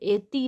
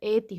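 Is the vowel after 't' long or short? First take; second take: long; short. First: The vowel after 't' is a long 'ee'. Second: The vowel after 't' is a short 'i'. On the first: The speaker calls it wrong. "ऐति नहीं होता" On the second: The speaker calls it right. "ऐति होता"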